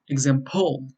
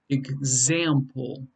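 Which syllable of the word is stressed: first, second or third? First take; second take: third; second. First: The stress is on the third syllable. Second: The stress is on the second syllable. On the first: The speaker calls it wrong. "nor is it example" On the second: The speaker calls it right. "it's the second syllable that's stressed"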